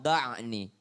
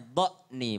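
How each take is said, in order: First: The middle consonant is a pharyngeal sound. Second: The middle consonant is a glottal stop. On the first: The speaker calls it wrong. "bukan da'ni" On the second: The speaker calls it right. "kalau huruf hamzah bacanya dha'ni"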